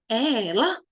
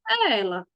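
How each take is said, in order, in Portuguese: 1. A voz sobe no final, como uma pergunta. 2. A voz vai sumindo no fim, como se ficasse inacabada. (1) "Estou fazendo uma pergunta" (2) "Dando a entender que teria mais"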